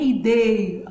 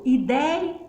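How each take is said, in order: First: "ideia" with a closed ê in the stressed syllable; wrong closed vowel. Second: "Ideia" with an open é in the stressed syllable; ditongo aberto. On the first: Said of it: "não é ideia". ("ideia" com ê fechado) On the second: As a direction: open the vowel wide in "Ideia". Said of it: "Ditongo aberto". ("Ideia" com é bem aberto) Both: Shown as a demonstration.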